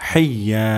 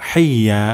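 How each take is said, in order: No difference in how they are said.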